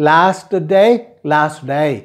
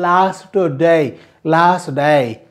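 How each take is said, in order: Both takes have the same delivery.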